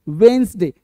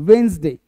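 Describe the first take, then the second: The two takes are said the same way.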